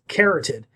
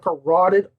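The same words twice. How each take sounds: First: The word begins like 'carrot'. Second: The word does not begin like 'carrot'. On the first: The speaker calls it wrong. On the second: The speaker calls it right.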